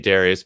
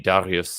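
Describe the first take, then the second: First: The name has an American Midwestern pronunciation. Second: The name has a German pronunciation. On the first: This is how the speaker normally says it. "I just say Darius" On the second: This is how it would be said in Germany. "if I was actually in Germany, it would be Darius"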